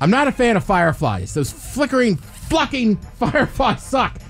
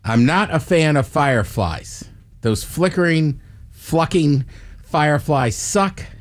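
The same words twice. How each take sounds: First: It is said quickly. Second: It is said at a normal pace.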